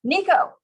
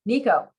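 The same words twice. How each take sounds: First: High, loud, insistent name call; urgent call to halt someone; much louder. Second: Slightly raised, insistent name call; mildly firm interruption, pitched up; a little louder. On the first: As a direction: cut in sharply with a raised voice. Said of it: "I say much louder". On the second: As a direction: raise the voice a little to get attention. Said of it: "I say a little louder". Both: A narrator's reading.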